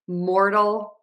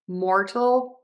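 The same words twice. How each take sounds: First: The middle consonant is a quick flapped sound. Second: The middle consonant is a clear T sound. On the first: "And now the flap T" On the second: "I'm going to do the T one first"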